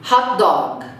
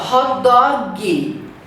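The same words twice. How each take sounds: First: The phrase ends cleanly on a consonant sound. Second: An extra vowel syllable is added at the end. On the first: The speaker calls it right. "O G termina na sua garganta" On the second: The speaker calls it wrong. "ele fala hot dog"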